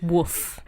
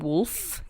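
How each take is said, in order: First: The word is said with no L sound. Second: The word is said with a clear L sound. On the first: The speaker calls it wrong. "He says woof" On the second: The speaker calls it right. "Johnny can't say the word wolf"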